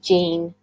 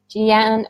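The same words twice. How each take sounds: First: Jean said as one syllable, like 'jeen'; one-syllable pronunciation. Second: Jeanne said as two syllables, jee-AN; two-syllable pronunciation. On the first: Host checking guest's name, Jean as one-beat 'jeen'. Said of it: "Is it Jean or Jeanne?". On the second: Host unsure of guest's name, Jeanne as jee-AN. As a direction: split Jeanne into jee-AN, weight on the end. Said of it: "or is it Jean". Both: Shown as a demonstration.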